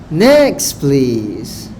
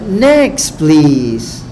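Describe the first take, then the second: No difference in how they are said.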